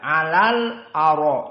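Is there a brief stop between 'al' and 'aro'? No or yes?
no. The words run on without a stop. This follows the majority reading. "Itu jumhur"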